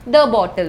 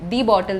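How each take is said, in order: First: The word 'the' has a short 'uh' vowel. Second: The word 'the' has a long 'ee' vowel. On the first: The speaker calls it right. "ദ ബോട്ടിൽ എന്നാണ് പറയുന്നത്" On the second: The speaker calls it wrong. "ദി ബോട്ടിൽ എന്ന് പറയില്ല"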